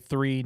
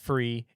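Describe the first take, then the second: First: The word starts with a th sound. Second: The word starts with an f sound. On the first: The speaker calls it right. "say three" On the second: The speaker calls it wrong. "not free"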